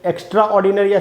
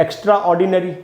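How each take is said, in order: No difference in how they are said.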